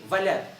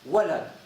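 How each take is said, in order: First: The word begins with a V sound. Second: The word begins with a W sound. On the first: The speaker calls it wrong. "You say Valad" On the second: The speaker calls it right. "it's hard for you to say Walid, Walad"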